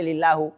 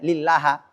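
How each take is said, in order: First: The word ends with a u vowel. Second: The word ends with an a vowel. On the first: "nggak boleh" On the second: "nggak boleh"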